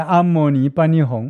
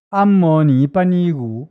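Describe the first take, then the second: First: The last syllable is pronounced hong. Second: The last syllable is pronounced gu. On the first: "我念闽南话比较顺" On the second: "她不会念，她念成古"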